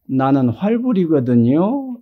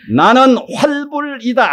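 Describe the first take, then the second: First: It is said weakly and timidly. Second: It is said forcefully from the belly.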